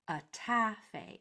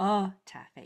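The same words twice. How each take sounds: First: The stress is on the second syllable. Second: The stress is on the first syllable. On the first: The speaker calls it right. "you'll notice that I put the accent right here" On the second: The speaker calls it wrong. "instead of"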